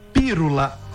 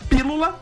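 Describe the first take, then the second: First: The middle consonant is an r sound. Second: The middle consonant is an l sound. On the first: The speaker calls it wrong. "e falou pírula" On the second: The speaker calls it right. "foi falar a palavra pílula"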